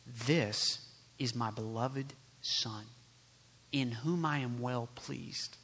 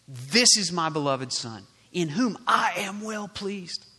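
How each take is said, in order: First: Low, soft and slow, as God the Father; tender fatherly voice. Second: Voice from heaven. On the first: God the Father speaking to believers, softly reassuring. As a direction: say it gently, lower and unhurried. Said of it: "this is what God the Father says about you". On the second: God speaking at Jesus's baptism, proclaiming. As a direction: proclaim it strongly as God the Father. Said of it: "voice came". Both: Acted.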